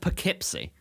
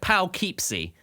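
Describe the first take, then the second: First: It is said the way locals say it. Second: It is said like an English place name. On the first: "but it's pronounced Poughkeepsie" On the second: "it's like Poughkeepsie"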